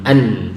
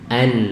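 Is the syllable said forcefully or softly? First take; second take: forceful; soft. First: The syllable is said with strong force. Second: The syllable is said with soft force. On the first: The speaker calls it wrong. "bukan an" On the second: The speaker calls it right. "Tekanannya dikurangi, tapi an, lebih lembut ya"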